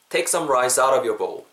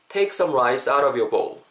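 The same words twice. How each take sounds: Both takes have the same delivery.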